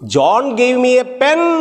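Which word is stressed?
pen. The stress is on pen.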